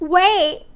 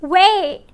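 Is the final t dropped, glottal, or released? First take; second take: glottal; glottal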